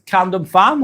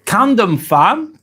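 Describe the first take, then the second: First: Said in the usual way. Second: Camden Farm spelled out slowly, each syllable placed with care; careful name reading. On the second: Shown as a demonstration. Streamer carefully trying a viewer's name, slow and careful. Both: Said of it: "hopefully if I say that right".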